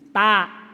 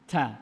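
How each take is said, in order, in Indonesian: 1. Dilepaskan tanpa hembusan napas yang terdengar. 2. Dilepaskan dengan hembusan napas yang terdengar. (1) "nggak ada angin ya kan" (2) "ah tuh ada tuh, lulus"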